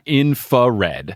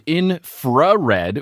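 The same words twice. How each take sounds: First: The R after 'inf' is dropped. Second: The R after 'inf' is pronounced. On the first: The speaker calls it wrong. "and not infrared" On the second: The speaker calls it right. "with an R"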